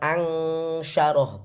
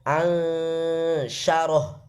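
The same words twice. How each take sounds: First: The nasal is pronounced as a separate ng sound. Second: The nasal glides straight into the sh sound. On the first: The speaker calls it wrong. "bukan N G Indonesia, bukan ansyaroh" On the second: The speaker calls it right. "tapi langsung masuk ke dalam makrotnya huruf shin"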